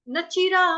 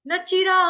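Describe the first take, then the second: The two takes are said the same way.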